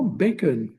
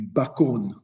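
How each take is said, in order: First: The word is pronounced the English way. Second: The word is pronounced the French way. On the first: This is the word it became in English. "qui est devenu littéralement bacon" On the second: This is the old French word. "du bacon"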